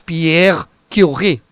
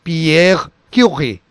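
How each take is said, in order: First: The R sound is soft and light. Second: The same.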